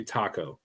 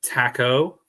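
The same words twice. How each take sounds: First: Taco with an open "ah" in the first syllable; common pronunciation. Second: Taco with a short "a" as in "tack"; alternative pronunciation. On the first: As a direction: say Taco as "TAH-ko". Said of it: "everyone calls you Taco". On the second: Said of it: "Is that how you say it?". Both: Shown as a demonstration.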